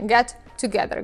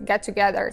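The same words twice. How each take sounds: First: The two T sounds are pronounced separately. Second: The two T sounds merge into one. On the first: The speaker calls it wrong. "Никто не говорит вот так вот раздельно" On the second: The speaker calls it right. "Говорят вот вместе get together, как будто бы используя одну букву T"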